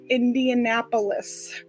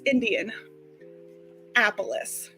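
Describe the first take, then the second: First: The start is reduced, like 'Inap' or 'Annapolis'. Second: The start is said fully as 'Indian'. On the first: The speaker calls it wrong. "I guess I've been saying that wrong my entire life" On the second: The speaker calls it right. "it's Indian, like Indiana"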